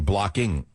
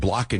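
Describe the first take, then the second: First: The word is said in a careful, formal way. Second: The word is said in a casual, informal way. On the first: It models correct speech for students. The speaker calls it right. "you'd say blocking" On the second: It matches the speech of the audience. The speaker calls it wrong. "instead of saying blocking"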